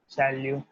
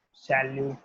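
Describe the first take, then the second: No difference in how they are said.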